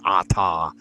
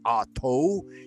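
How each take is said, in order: First: The word ends in an 'ah' vowel. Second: The word ends in an 'oh' vowel. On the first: This is the pronunciation most practitioners use today. "most modern practitioners agree that it should be Ata" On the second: This is one teacher's older pronunciation. "Israel Regardi has said it Ato"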